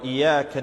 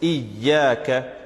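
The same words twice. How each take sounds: First: The y sound is short and loose. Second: The y sound is doubled and held. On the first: The speaker calls it wrong. "read it very loosely" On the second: The speaker calls it right. "There's a shadda. So there's this layer of emphasis"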